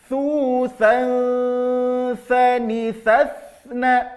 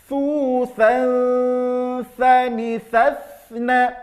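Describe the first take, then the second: No difference in how they are said.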